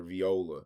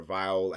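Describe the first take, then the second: First: Viola with a "vee" first syllable. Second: Viola with a "vie" first syllable. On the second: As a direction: say Viola as "vy-OH-luh". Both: Shown as a demonstration. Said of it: "however the fuck they're saying it".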